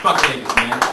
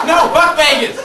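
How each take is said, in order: First: Said in the usual way. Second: High, loud, emphatic refusal. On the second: Pretend. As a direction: shout it with full force.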